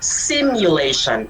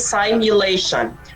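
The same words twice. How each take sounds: First: The word is said in the standard form. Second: The word is said in the common-error form. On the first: The speaker calls it right. "We say simulation" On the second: The speaker calls it wrong. "We don't say simulation"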